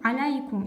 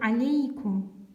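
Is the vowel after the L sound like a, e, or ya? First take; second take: ya; e. First: The vowel after the L sounds like ya. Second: The vowel after the L sounds like e. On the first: The speaker calls it wrong. "мы не говорим аляйкум" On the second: The speaker calls it right. "мы говорим алейкум"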